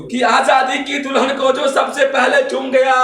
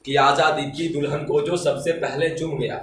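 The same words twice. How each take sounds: First: High, louder heroic recitation; fiery declamation. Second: Said in the usual way. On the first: Acted. Reciter honouring Subhash Chandra Bose, fiery declamation. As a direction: ring it out as stirring verse. Verse repeated at full force.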